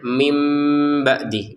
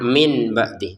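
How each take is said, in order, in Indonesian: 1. Kata pertama berakhir dengan bunyi m. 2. Kata pertama berakhir dengan bunyi n. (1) "Jadi bacanya mim ba'di" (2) "bukan min ba'di"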